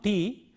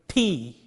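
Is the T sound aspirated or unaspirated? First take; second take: unaspirated; aspirated. First: The T is said without a puff of air. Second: The T is said with a puff of air. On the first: The speaker calls it wrong. "not T" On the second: The speaker calls it right. "but T. See the difference?"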